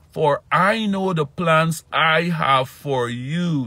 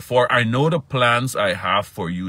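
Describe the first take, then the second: First: High, slow, loud emphatic preaching. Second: Preaching. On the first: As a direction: lean into every word of the verse. Repeats verse slower, higher. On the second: Preaches the verse. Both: Acted.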